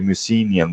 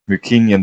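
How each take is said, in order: First: The middle consonant is a soft s sound. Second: The middle consonant is a hard k sound. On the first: This is how Americans often say it. The speaker calls it wrong. "sometimes American people say Mycenaean" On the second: This is how Greeks say it. The speaker calls it right. "but actually Mycenaean"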